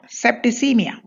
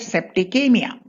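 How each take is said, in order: First: The C is sounded as a soft s. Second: The C is sounded as a hard k. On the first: "so it should be soft" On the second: "so it should be hard"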